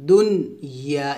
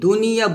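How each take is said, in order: First: The n is said clearly, apart from the y. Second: The n runs smoothly into the following y. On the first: The speaker calls it right. "এভাবে স্পষ্ট করে পড়তে হবে" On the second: The speaker calls it wrong. "আমরা এখানে অনেক ভুল করি, দুনিয়া বলি"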